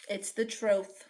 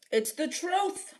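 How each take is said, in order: First: Said in the usual way. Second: High mock-innocent "It's the truth." with a rising end; "truth" lifted up in a put-on voice; sing-song "It's the truth" as a cheeky protest; laying it on thick. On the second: Shown as a demonstration. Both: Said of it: "Now she's just laying it on thick".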